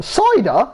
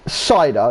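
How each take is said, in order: First: High, incredulous echo on CIDER; mock disbelief. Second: Said in the usual way. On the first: Friend questions the order of cider, incredulous CIDER. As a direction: throw back CIDER as a high-pitched question.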